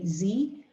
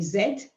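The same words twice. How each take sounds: First: The letter is said the American way. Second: The letter is said the British way. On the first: "Americans say Z" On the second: "in Britain we say Z"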